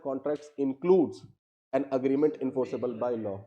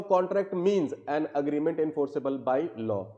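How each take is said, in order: First: Slow read, "includes" leaned on; stress on includes. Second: Slow read, "means" leaned on; stress on means. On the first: Teacher asks students to choose, slow with "includes" stressed. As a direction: dictate it slowly, pressing on "includes". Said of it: "होना चाहिए या". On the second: Teacher reading the definition to students, slow with "means" stressed. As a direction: dictate it slowly, pressing on "means". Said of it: "अगर मैं बोल रहा हूं". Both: Shown as a demonstration.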